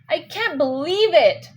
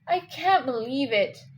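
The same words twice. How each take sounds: First: The word believe is stressed with force. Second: The word I is stressed and drawn out. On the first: "You're going to put more stress and believe. So it's a fall to rise" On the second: "they put more, you know, stress in I. They elongated it"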